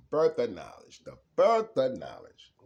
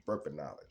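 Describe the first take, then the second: First: Louder, declaring it proudly; emphatic proclamation. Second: Said in the usual way. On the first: Shown as a demonstration. Repeating the phrase to the viewers, louder and emphatic. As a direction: announce it like a revelation.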